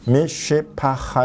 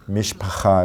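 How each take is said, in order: First: Each syllable is said separately and slowly. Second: The syllables run together quickly. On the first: "이렇게 따로따로 하다가" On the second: "이렇게 좀 빨라지는 거예요"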